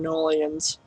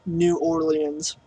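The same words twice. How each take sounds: First: Said in the usual way. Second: "New Orleans" said slowly and softly, each word distinct; softly re-say "New Orleans", taking time over it; careful pronunciation. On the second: Real, not acted. Repeats city name more carefully.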